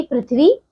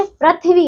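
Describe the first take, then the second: First: पृथ्वी said properly as "prithvi" with ri; correct pronunciation. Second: पृथ्वी said as "prathvi", a short a in place of ri; teacher demonstrates the incorrect पृथ्वी, saying prathvi; wrong pronunciation. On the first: Teacher correcting children's mistake: पृथ्वी said correctly as prithvi. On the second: Teacher showing children the common mistake: पृथ्वी mispronounced as prathvi. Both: Shown as a demonstration. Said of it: "नहीं पृथ्वी".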